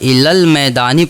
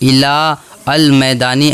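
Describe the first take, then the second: First: The 'a' of 'al' is dropped, joining 'ilal'. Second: The 'a' of 'al' is pronounced separately. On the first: The speaker calls it right. "बल्कि इलल मैदानी पढ़ेंगे" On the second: The speaker calls it wrong. "ऐसे नहीं पढ़ेंगे"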